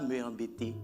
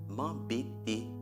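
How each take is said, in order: First: The word 'me' is a separate full syllable. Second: The 'me' is elided into the next word. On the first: The speaker calls it wrong. "on ne dit pas me embêter" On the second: The speaker calls it right. "on dit m'embêter"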